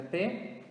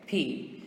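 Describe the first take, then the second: First: P said as "peh"; Portuguese letter P. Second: P said as "pee"; English letter P. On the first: Teacher naming the letter in Portuguese first, P as "peh". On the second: Teacher answering with the English letter, P as "pee". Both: Shown as a demonstration. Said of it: "in English is going to be".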